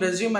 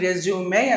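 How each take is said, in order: First: The word ends in a plain 'm' sound. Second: The word ends in an 'ay' vowel sound. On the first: The speaker calls it wrong. "దాన్ని రెజ్యూమ్ రెజ్యూమ్ అని అంటాం కదా" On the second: The speaker calls it right. "దాన్ని రెజ్యూమే అనాలండి"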